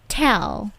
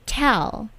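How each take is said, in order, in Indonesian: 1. Bunyi T punya hembusan udara yang kuat. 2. Bunyi T punya hembusan udara yang kuat.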